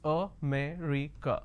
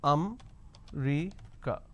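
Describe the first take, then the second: First: It is said with four full syllables. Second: It is said with three syllables, one dropped. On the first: The speaker calls it right. "the correct pronunciation is" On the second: The speaker calls it wrong. "they drop a syllable"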